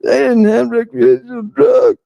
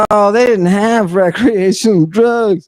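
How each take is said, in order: First: Higher, shouted parody of the doubters; mock skeptic raised to a shout. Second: Raised, sneering mimicry of the doubters; mock the people who say this, a bit higher; scoffing imitation of naysayers; mocking skeptics. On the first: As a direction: yell it back at them in a silly mock voice. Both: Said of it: "all those people who are like".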